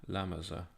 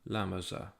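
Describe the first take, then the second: The two takes are said the same way.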